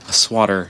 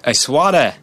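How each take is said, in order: First: It is said in his plain accent. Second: It is said in a put-on Boston accent.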